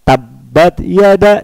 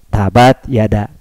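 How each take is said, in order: First: The consonant is doubled with pressure. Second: The consonant is read plain without pressure. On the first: The speaker calls it right. "Harusnya ada tekanan" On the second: The speaker calls it wrong. "harusnya ada tasdid tapi kita baca lurus"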